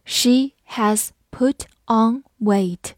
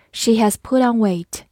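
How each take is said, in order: First: One word at a time; slow teacher's model with pauses between words; slow read-through. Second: Said in the usual way. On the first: Shown as a demonstration. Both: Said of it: "好，慢读一遍".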